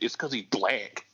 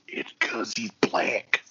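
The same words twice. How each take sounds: First: It is said in a normal voice. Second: It is whispered.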